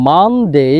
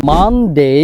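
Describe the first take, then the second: No difference in how they are said.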